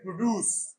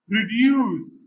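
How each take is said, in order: First: No 'y' sound comes before the 'u' vowel. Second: A 'y' sound comes before the 'u' vowel. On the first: This is the American pronunciation. "American ... without the sound" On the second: This is the British pronunciation. "This is British"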